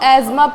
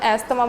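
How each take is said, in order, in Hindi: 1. बीच में z की आवाज़ है, th नहीं। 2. बीच में s और th की आवाज़ है। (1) "जिसको एजमा प्रोनाउंस करते हैं" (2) "लेकिन हम अपने आसपास में एस्थमा बोलते हैं"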